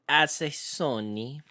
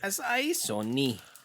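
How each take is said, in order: First: The second syllable sounds like 'ay'. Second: The second syllable sounds like 'eye'. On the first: The speaker calls it wrong. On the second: The speaker calls it right.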